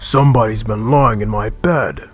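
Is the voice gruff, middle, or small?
gruff. It is said in a rough, gruff voice.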